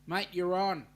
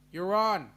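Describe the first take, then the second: First: Louder "you're on", accepting the bet; game acceptance. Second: "You're on" said much louder, with a firm falling end; emphatic repeat. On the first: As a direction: take the dare with a grin. Accepting a friendly challenge. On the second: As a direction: double down on the challenge, loud. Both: Real, not acted.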